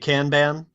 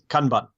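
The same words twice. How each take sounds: First: It is said with an American accent. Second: It is said in a clipped, staccato Japanese way. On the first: "if you're in America, you're likely to say Kanban" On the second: "the proper Japanese pronunciation, I think, is Kanban, just very uh, staccato"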